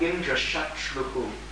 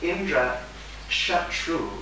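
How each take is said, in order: First: The last word ends with an added echoed syllable. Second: The last word ends plainly, with no extra syllable. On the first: One whose enemy is Indra. The speaker calls it wrong. "he said something like Indra Shatruhu, the sarga, the doubled syllable at the end" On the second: One who is the enemy of Indra and could kill him. The speaker calls it right. "Instead of saying Indra Shatru"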